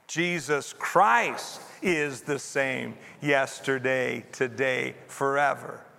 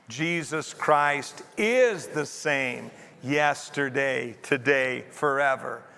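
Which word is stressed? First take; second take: Christ; is. First: The stress is on the word Christ. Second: The stress is on the word is.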